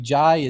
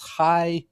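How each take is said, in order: First: The name begins with a J sound. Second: The name begins with an H sound. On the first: The speaker calls it wrong. "it's not really Jai" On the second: The speaker calls it right. "It's actually that's how you say it"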